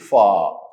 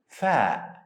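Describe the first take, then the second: First: The sound is heavy and full. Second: The sound is light and thin. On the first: The speaker calls it wrong. "Don't say" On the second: The speaker calls it right.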